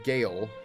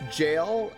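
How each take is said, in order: First: The word begins with a hard G sound. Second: The word begins with a soft J sound. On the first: The speaker calls it right. "then I found out it was pronounced Gale" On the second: The speaker calls it wrong. "I always thought it was pronounced jail"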